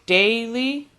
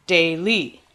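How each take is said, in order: First: "daily" as DAY-lee, first syllable strong; stress on first syllable. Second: "daily" as day-LEE, end stressed; deliberately wrong day-LEE; stress on second syllable. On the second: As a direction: push the weight onto the last syllable of "daily". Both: Shown as a demonstration. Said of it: "Would you say daily or daily?".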